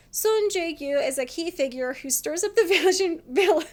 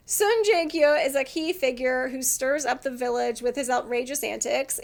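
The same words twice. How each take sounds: First: Reading while starting to laugh; higher, cracking up mid-sentence; real laughter. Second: Said in the usual way. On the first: Real, not acted. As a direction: read it out until laughter breaks it up. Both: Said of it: "I'm laughing because it's true".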